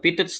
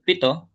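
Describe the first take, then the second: First: The word ends with an audible t sound. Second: The word ends in a vowel, no t. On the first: The speaker calls it wrong. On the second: The speaker calls it right.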